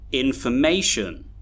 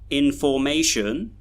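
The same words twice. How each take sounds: First: The unstressed syllables are reduced to schwa. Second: The unstressed syllables have full vowels. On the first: The speaker calls it right. "So we should say information" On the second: The speaker calls it wrong. "we don't say information"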